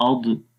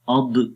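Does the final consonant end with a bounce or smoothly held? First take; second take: bounce; bounce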